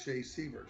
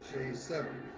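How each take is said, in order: First: The surname's first vowel sounds like 'ee'. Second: The surname's first vowel sounds like 'eh'. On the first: The speaker calls it wrong. "the call of it was Shea Seaver" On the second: The speaker calls it right. "Should have been Shea Sever"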